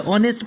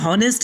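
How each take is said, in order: First: The word begins directly with a vowel sound. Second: The word begins with an audible h sound. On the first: The speaker calls it right. "बल्कि ऑनेस्ट पढ़ना है" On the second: The speaker calls it wrong. "हॉनेस्ट नहीं पढ़ना है"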